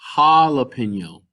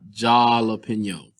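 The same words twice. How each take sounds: First: The first sound is the Spanish J. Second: The first sound is the English J. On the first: The speaker calls it right. "Notice that it's jalapeno" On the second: The speaker calls it wrong. "not jalapeno. So don't confuse your J pronunciation with the way that we pronounce them in English"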